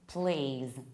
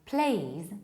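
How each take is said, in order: First: It is said in an American accent. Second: It is said in a British accent. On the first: "please in American accent" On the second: "please in British accent"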